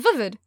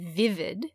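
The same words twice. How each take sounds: First: The vowels have a New Zealand accent. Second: The vowels have an Australian accent. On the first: "And she's like" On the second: "in an Australian accent would be vivid"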